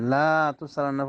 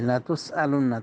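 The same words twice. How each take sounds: First: The first vowel is drawn out long. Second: The first vowel is short and quick. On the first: The speaker calls it wrong. "পড়লে কুফরি বাক্য হয়ে যাবে" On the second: The speaker calls it right. "তাড়াতাড়ি পড়তে হবে"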